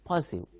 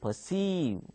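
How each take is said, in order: First: The stress is on the first syllable. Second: The stress is on the second syllable. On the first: The speaker calls it wrong. "don't uh, pronounce it as uh, perceive" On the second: The speaker calls it right. "You pronounce it as perceive"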